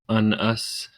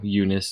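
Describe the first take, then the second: First: The name begins with an 'uh' sound. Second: The name begins with a 'you' sound. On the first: The speaker calls it wrong. "That's just, no" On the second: The speaker calls it right. "Eunice instead of un-us"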